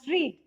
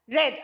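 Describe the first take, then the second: First: It has a long 'ee' vowel, like 'reed'. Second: It has a short 'e' vowel, like 'red'. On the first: It is the present tense. "in the present as read" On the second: It is the past tense. "in the past tense we pronounce it as read"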